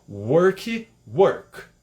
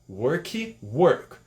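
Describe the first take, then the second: The two takes are said the same way.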